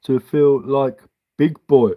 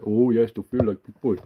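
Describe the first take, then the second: First: Put-on slow, childlike read of his words; slow mocking quote. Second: Softer, put-on childish echo; softer patronising child voice; mock child voice. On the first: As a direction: read it out like a kid's card. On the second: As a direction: coo it back like to a toddler. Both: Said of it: "my five-year-old writes me".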